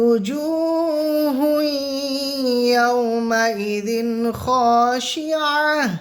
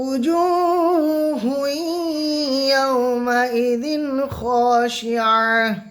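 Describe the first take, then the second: No difference in how they are said.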